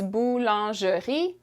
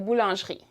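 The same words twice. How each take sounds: First: It is said slowly, each syllable separate. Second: It is said quickly, middle syllables run together. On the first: "So slowly is boulangerie" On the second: "when we say it at a normal pace, some of the middle words get kind of smushed together"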